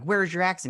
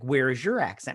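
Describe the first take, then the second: First: "Where's" pitched high and punched; stressed question. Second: "your" punched, pitch swooping on it; question thrown back. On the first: Wanda questions Quicksilver, imitated challenge leaning on "Where's". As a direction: ask with a high push on "Where's". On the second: Quicksilver answers Wanda's question with a question, leaning on "your". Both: Retold or imitated. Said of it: "answers a question with a question".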